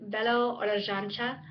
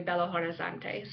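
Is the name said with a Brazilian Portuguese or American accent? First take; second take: Brazilian Portuguese; American. First: It is said with a Brazilian Portuguese accent. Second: It is said with an American English accent.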